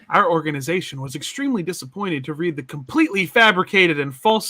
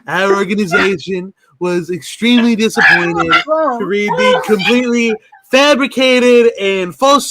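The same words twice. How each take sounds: First: It is read in a normal speaking voice. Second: It is read in a put-on character voice. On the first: The speaker calls it wrong. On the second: The speaker calls it right.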